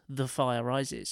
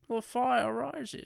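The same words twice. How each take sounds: First: It is said in his normal narrating voice. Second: It is said in a put-on Bane voice.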